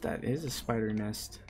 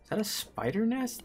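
First: Said in the usual way. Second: Much higher rising question; sudden discovery, checking; surprised question. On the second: Real, not acted. Spots nest.

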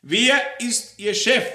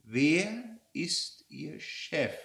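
First: High, shouted interrogation; forceful, angry questioning; loud demand. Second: Very slow, word-by-word question; deliberate, drawn-out interrogation; slow, menacing repeat. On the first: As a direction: fire the question at full volume. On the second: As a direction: stretch each word like a predator cornering prey. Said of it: "wiederholte ihre Frage". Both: Acted.

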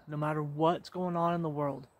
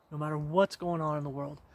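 The two takes are said the same way.

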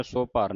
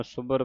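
First: ਸੋ ਭਰ as two words, long o; split with an o. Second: ਸੁਭਰ joined, with short u; short u, one word. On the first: Teacher showing students the mistake, ਸੋ ਭਰ with long o. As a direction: open the first vowel to "so" in ਸੋ ਭਰ. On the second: Teacher modelling it for students, ਸੁਭਰ with short u. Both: Shown as a demonstration. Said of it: "ਸੋ ਭਰ ਨਹੀਂ ਕਹਿਣਾ".

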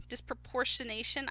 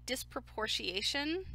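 First: "disproportionation" with the n sounded, ending shuh-NAY-shun; retry "disproportionation" as dis-pro-por-shuh-nay-shun; careful second go at "disproportionation", middle n kept; corrected retry. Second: "disproportionation" with the n dropped, ending shee-AY-shun; fumbled "disproportionation", missing its middle n; mispronounced word. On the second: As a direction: stumble on "disproportionation" as dis-pro-por-shee-ay-shun. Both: Real, not acted. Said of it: "I just cannot say that word right".

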